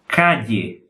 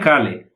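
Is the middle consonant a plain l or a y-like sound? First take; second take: y-like; plain l. First: The middle consonant is a soft y-like sound. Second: The middle consonant is a plain l sound. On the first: The speaker calls it right. "é calle" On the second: The speaker calls it wrong. "Não é cale"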